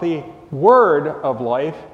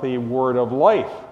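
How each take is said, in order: First: The stress falls on the word "word". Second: The stress falls on the word "life". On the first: The Word refers to Jesus. The speaker calls it wrong. "not talking about the Word of life" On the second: The focus is on life itself. The speaker calls it right. "he's talking about the Word of life"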